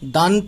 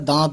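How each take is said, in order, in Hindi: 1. पूरा n व्यंजन बोला जाता है। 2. स्वर नासिकीकृत होता है, पूरा n नहीं। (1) "दांत ना बोलकर" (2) "दांत बोला है"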